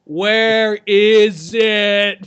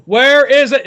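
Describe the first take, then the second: First: Very slow stretched question; slow drawn-out. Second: Sharp loud demand. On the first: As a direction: drag every word out. Same question repeated, drawn out. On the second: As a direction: bark it as a demand. Demanding question, pointing scene. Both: Acted.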